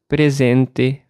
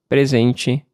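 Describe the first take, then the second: First: The final te keeps a plain T sound. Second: The final te has a changed T sound. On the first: This is the accent of one home region. "o sotaque usava o som de T nas palavras terminadas em TE como T" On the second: This is the accent of a later region. "adaptei o meu TE, no fim das palavras, ao sotaque de lá"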